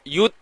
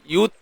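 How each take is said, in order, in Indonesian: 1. Bunyi t ditahan kuat sebelum dilepas. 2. Bunyi t ditahan kuat sebelum dilepas.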